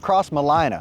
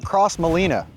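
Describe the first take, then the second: First: The name's ending rhymes with Carolina. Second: The name's ending does not rhyme with Carolina. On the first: The speaker calls it right. "like South Carolina" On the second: The speaker calls it wrong. "it is not Cross Molina"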